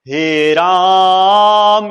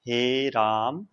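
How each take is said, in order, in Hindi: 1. यह वाक्यांश ऊंची आवाज़ में बोला गया है। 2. यह वाक्यांश नीची आवाज़ में बोला गया है। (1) "बहुत ही ऊंची आवाज में बोल रहा है" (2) "निम्न स्वर में बोल रहा है"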